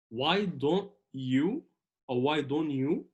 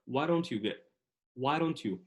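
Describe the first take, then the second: First: Why don't you in slow, separate words; careful full pronunciation. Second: American linked why don't you, D softened to a tap; pure American accent. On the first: Teacher giving the careful version, why don't you unlinked. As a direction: say why don't you word by word, D clearly sounded. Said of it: "ينفع تقول اللي أنا لسه قلته". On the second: Teacher demonstrating American speech, why don't you run together. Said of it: "بس باللهجة الأمريكية الخالصة". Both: Shown as a demonstration.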